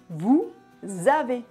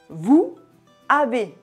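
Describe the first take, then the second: First: The words are linked with a z sound. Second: The words are separate and the s is silent. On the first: "Le S à la fin du mot vous est lié au A au début de avez" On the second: "Si on prononce les mots séparément, on dit vous avez. Le S à la fin de vous est muet"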